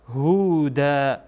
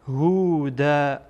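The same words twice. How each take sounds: The two takes are said the same way.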